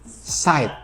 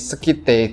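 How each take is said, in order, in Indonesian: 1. Nama itu diucapkan tanpa bunyi k. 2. Nama itu diucapkan dengan bunyi k. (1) "harusnya pronunciation yang benar itu dibacanya Side" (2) "Tulisannya Sekite kayak gini"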